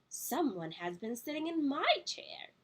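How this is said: It is said in a middle-sized voice.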